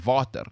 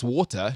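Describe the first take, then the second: First: It is said with an Afrikaans accent. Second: It is said in his usual accent.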